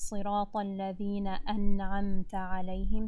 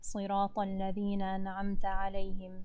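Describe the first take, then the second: First: The glottal stop in an'amta is clearly pronounced. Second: The glottal stop in an'amta is rushed and dropped. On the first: The speaker calls it right. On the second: The speaker calls it wrong.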